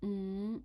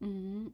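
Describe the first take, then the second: First: It is said in Cantonese tone five. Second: The same.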